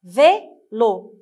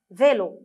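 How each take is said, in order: First: "Vélo" as VÉ, pause, LO; syllable by syllable. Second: Said in the usual way. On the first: Shown as a demonstration. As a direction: split "Vélo" into two loud beats. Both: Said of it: "lisez avec moi".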